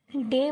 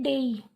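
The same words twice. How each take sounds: First: डे said with one plain long e vowel; short simple डे, a single pure vowel; common mispronunciation. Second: डेई with an e gliding into i; teacher's careful डेई, ending on an ee glide; correct pronunciation demo. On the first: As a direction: say डे without any glide at the end. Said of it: "लेकिन ये डे नहीं होता". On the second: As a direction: draw डेई out into a clear ei diphthong. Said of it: "इसको बोलते हैं डेई". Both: Shown as a demonstration.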